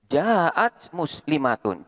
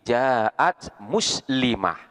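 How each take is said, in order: First: The last word ends with a -tun sound. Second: The last word ends with an -ah sound. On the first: The reading continues without stopping. "seperti lafat ja'at muslimatun" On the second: The reading stops on this word. "ketika dibaca wakof, tanwinnya di sini dibuang ... diganti dengan huruf H"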